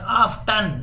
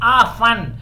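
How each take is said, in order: First: It is said with a clear t sound. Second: It is said without any t sound. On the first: "आप टी के साथ भी बोल सकते हैं" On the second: "टी silent हो गया"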